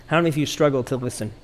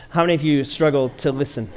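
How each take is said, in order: First: Quick, tossed-off asking; rushed question. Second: Said in the usual way. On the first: Shown as a demonstration. Pastor first rushes the question to the congregation, fast. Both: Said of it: "Maybe you didn't hear me".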